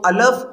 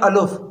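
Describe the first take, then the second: First: The vowel after the L is a. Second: The vowel after the L is u. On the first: "कुछ पढ़ते हैं अलफ ... ये दोनों तरीके ये गलत हैं" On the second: "कुछ पढ़ते हैं अलुफ, तो ये दोनों तरीके ये गलत हैं"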